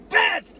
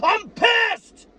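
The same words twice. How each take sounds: First: A rising, still-held-back yell; building toward a full yell; first angry shout. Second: Furious fan yelling at critics; full angry shout. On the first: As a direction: let the anger break through. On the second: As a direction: let it explode at the top of your voice. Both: Real, not acted. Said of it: "now I'm gonna fucking yell".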